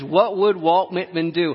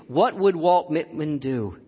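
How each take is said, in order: First: "would" lifted and leaned on, lively; stress on would. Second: "What would Walt Whitman do" spoken slowly, each word weighed; slow down and savour "would"; slow reflective. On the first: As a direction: lean into "would" brightly. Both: Acted.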